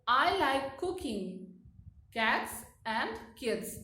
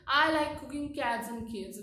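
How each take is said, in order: First: There is a pause after cooking. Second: It runs on with no pause after cooking.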